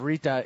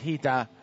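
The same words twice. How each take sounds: First: The name begins with an R sound. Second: The name begins with an H-like sound. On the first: The speaker calls it wrong. "instead of Rita" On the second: The speaker calls it right. "the R's are pronounced like H's in Portugal and Brazil"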